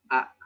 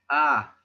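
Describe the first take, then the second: First: The vowel is short and cut off sharply. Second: The vowel is said with a high pitch. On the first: "la vocal glotalizada, que es como cortar" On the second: "Tenemos el tono alto, que es una acentuación"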